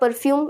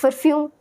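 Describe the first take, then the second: First: The word begins with a P sound. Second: The word begins with an F sound. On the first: "it's not perfume" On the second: "instead of P you say F"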